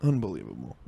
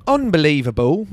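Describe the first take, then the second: First: Low, soft grumble of disbelief. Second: Higher, louder put-on voice of disbelief; put-on outrage. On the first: Acted. Comic sums up the fry story, low mock disbelief. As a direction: drop it low and quiet. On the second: Comic sums up the fry story, loud mock outrage. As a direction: raise pitch and volume, hammed-up. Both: Repeats word in two contrasting voices.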